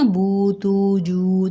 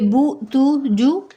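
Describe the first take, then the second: First: The vowels are drawn out long. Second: The vowels are kept short. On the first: The speaker calls it right. "तो ये मद हो रही है" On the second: The speaker calls it wrong. "तो वो सिंपल हरकत होगी"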